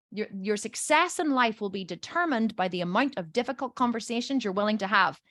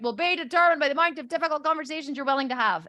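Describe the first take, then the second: First: Said in the usual way. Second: Higher-pitched mock recitation; imitated reluctant repeat of a mantra; grudging recital. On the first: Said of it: "I'll say". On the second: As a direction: chant it back like a drilled child. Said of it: "and they repeat it".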